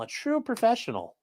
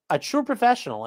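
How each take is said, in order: First: Quiet sarcastic. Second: Sarcastic. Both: Acted.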